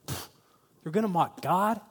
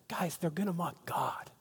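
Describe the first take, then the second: First: Imitated disbelief, rising at the end; incredulous question. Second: Hushed, urgent imitation of the psalmist; passionate warning. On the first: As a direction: echo it back as the shocked people. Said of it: "the people are like". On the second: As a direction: softly alert the people, falling at the end. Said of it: "same type of thing".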